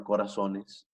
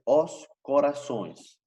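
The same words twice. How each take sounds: First: Said in the usual way. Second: "os corações" slowly, with nasal -ões; Portuguese pronunciation. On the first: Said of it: "sería nosotros en español". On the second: Shown as a demonstration. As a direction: model the Portuguese plural "os corações", spaced out. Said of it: "el plural es". ("os corações" despacio, en portugués, con final nasal)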